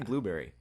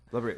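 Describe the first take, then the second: First: The first vowel is a long 'oo' sound. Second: The first vowel is a short 'uh' sound. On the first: The speaker calls it right. "He couldn't say blueberry" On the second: The speaker calls it wrong. "He would say blubbery"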